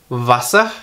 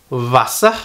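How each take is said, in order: The two takes are said the same way.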